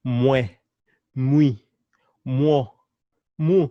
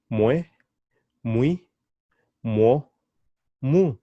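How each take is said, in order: Both takes have the same delivery.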